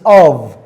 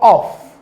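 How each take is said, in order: First: The word ends with a voiced v sound. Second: The word ends with a voiceless f sound. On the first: The speaker calls it right. "In v as in of" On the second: The speaker calls it wrong. "This word is mostly mispronounced by students. It is not of"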